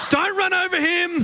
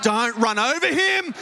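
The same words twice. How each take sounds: First: Shouted warning. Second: Said in the usual way. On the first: Retold or imitated. Late arrival, friend taps his watch, Simo shouts to himself. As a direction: yell it the second time, much higher.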